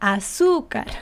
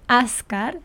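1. La vocal central se pronuncia clara y acentuada. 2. La vocal central se omite. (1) "sino azúcar" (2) "No es ascar"

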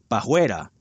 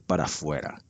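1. Es contraída, con un sonido j en lugar de f. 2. Se dice completa, con sonido f. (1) "Pajuera con J" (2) "En lugar de decir para afuera"

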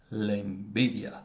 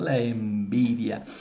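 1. Se dice con un tono normal y neutro. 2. Se dice con un tono marcado y dramático.

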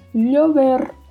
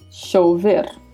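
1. A primeira consoante soa como um 'ly' palatal. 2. A primeira consoante soa como o 'sh' do inglês. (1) "som de LH" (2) "som de X"

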